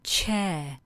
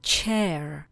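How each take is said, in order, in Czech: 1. Vyslovuje se to neamerickým, britským přízvukem. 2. Vyslovuje se to americkým přízvukem.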